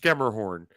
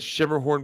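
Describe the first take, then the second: First: The name begins with a 'sk' sound. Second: The name begins with a 'sh' sound. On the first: The speaker calls it right. "You're right. It's Skemmerhorn" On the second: The speaker calls it wrong. "I always said Shimmerhorn because I don't know exactly"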